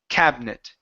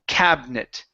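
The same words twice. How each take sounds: First: The middle vowel is dropped from the word. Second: The middle vowel is dropped from the word.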